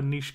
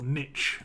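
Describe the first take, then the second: First: It is said with a non-American pronunciation. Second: It is said with an American pronunciation. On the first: The speaker calls it right. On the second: The speaker calls it wrong.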